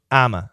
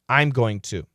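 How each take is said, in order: First: The phrase shrinks to two short syllables. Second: Every word is said in full. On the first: "there's one more reduction that we also use" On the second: "the phrase"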